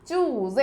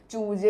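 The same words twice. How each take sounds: First: "ചൂസേ" with a z, choo-zay; correct pronunciation. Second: "ചൂജേ" with a j, choo-jay; wrong pronunciation. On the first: Teacher corrects the reading for pupils, correct pronunciation. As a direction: say "ചൂസേ" with a buzzed z, never j. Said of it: "എന്ന് തന്നെ വായിക്കണം". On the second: Teacher shows pupils how not to read it, wrong pronunciation. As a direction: say "ചൂജേ" with j in place of z. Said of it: "എന്ന് വായിക്കത്തില്ല". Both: Shown as a demonstration.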